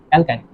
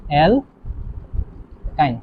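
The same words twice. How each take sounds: First: Said in the usual way. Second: অ্যালকাইন very slow and softer, long gap between syllables; drawn-out dictation. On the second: Shown as a demonstration. Teacher dictating the next compound, অ্যালকাইন slowly syllable by syllable. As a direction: pull অ্যালকাইন apart into two pieces.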